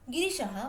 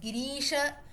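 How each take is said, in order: First: The second-syllable vowel is kept short. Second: The second-syllable vowel is held long. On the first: It refers to the mountain. "when the re is small" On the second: It refers to the goddess Parvati. "usually when the re is long"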